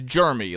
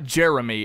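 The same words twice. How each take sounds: First: The first syllable sounds like the word 'germ'. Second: The first syllable is a plain 'jer' sound. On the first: The speaker calls it wrong. "it's Jeremy. Like he's he's sickly. He's of germs" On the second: The speaker calls it right. "Not Jeremy"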